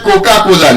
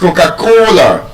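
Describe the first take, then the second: First: The stress is not on the third syllable. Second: The stress is on the third syllable. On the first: The speaker calls it wrong. "just like a typical Nigerian" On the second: The speaker calls it right. "The stress is on the third syllable"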